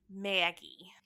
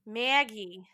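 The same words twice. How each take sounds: First: Breathy whispered name, spooky. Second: Said in the usual way. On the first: Shown as a demonstration. Host whispers the character's entrance for drama.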